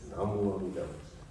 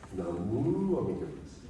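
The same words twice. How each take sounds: First: The syllable mu is not emphasized. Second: The syllable mu is strongly emphasized.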